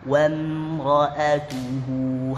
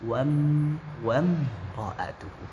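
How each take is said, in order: First: The word 'wa' ends cleanly without any echo. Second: The word 'wa' bounces with an audible echo. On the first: The speaker calls it right. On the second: The speaker calls it wrong.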